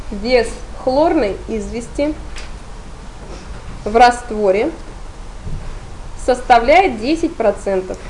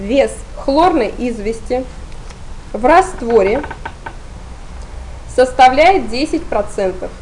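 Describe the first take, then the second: The two takes are said the same way.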